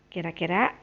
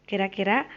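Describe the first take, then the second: No difference in how they are said.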